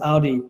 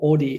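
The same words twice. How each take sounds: First: Audi is said in the American way. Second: Audi is said in the South African way.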